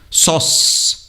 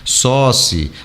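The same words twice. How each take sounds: First: The word ends sharply on the final consonant. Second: An extra vowel sound follows the final consonant. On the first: The speaker calls it right. "o E como se não existisse" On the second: The speaker calls it wrong. "o brasileiro tem a mania de falar"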